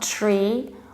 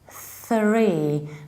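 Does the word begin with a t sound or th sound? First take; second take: t sound; th sound. First: It begins with a plain t sound. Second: It begins with a th sound, tongue between teeth. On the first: The speaker calls it wrong. "not tree" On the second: The speaker calls it right. "exactly this way you start to say three"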